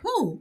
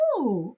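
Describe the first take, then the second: First: It sounds guilty and feigned. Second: It sounds innocent and sincere.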